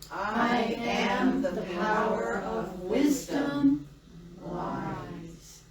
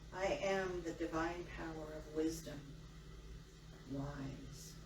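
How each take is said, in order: First: It is said loudly and energetically. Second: It is said calmly and quietly.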